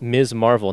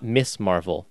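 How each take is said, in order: First: The first word ends in a buzzing z sound. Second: The first word ends in a hissing s sound. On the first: The speaker calls it right. "Pronounced Ms. Marvel" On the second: The speaker calls it wrong. "not Miss Marvel"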